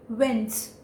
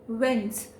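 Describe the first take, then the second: Both takes have the same delivery.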